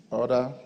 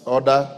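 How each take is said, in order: First: Said in the usual way. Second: Loud, sharp call of order; shouting order order. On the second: Real, not acted. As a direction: bark it to silence the room. Speaker calls the House to order.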